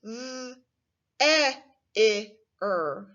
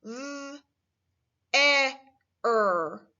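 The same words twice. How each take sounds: First: V, e, i, er sounded out separately, including the i; mock wrong blending. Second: V, e, er with no i sound; correct blend. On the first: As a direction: split their into each letter. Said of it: "You may have said ... not quite right". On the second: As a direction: sound out their as th, eh, er. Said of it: "This word is pronounced". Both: Shown as a demonstration.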